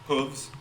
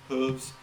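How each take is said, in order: No difference in how they are said.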